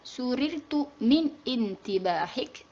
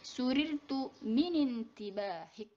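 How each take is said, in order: First: The noun starts with its own separate vowel. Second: The words link with the noun's initial vowel dropped. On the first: The speaker calls it wrong. "tidak dibaca" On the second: The speaker calls it right. "tapi dibacanya"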